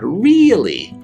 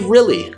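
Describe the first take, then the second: First: The first vowel is a long E sound. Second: The first vowel is a short I sound. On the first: The speaker calls it wrong. "the long E sound, really. But we don't say really" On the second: The speaker calls it right. "We say really, like with a short I sound"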